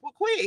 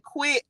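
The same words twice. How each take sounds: First: A high, offhand quip as the Lord; the Lord answering. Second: A short, high word as the Lord; the Lord answering. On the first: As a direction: toss it off lightly in the Lord's voice. Retelling what the Lord told her. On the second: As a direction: drop it simply as the Lord. Retelling the Lord's one-word answer. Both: Retold or imitated.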